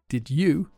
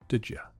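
First: The word 'you' has its full vowel. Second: The word 'you' is reduced to 'ya'.

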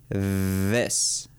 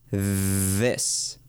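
First: It begins with a th sound. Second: The same.

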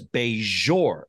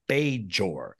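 First: The J is pronounced as a soft zh. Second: The J is pronounced as a hard J. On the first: "He does a zhuzh to it" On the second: "It's a hard J"

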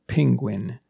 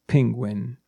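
First: It sounds like 'ping' plus 'gwin'. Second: The same.

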